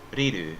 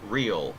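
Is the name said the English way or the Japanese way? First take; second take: Japanese; English. First: A vowel sound follows the L sound. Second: The name ends on the L sound. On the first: "in Japanese, it's Riru because they put the vowel sound after the L" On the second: "if I were to say it with an English accent, it would be real"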